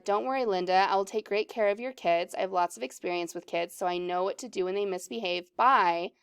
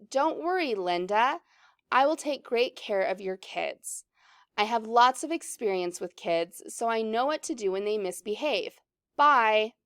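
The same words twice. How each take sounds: First: Fast, understated read-through; quick recap. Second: Lightly voiced script character, at an unhurried pace; lightly acted reading. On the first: Shown as a demonstration. Teacher recaps Corey's lines to find the next part, quickly. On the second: Corey reassures Linda about her kids, lightly acted, unhurried.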